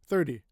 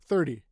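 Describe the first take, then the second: Both takes have the same delivery.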